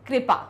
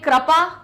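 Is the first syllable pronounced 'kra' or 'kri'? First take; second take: kri; kra. First: The first syllable sounds like 'kri'. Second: The first syllable sounds like 'kra'. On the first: "सही क्या होता है" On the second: "क्र क्रा बोलेंगे"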